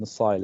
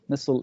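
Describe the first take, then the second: First: It is said with a British pronunciation. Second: It is said with an American pronunciation. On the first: "missile is British" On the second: "Missile is uh, American"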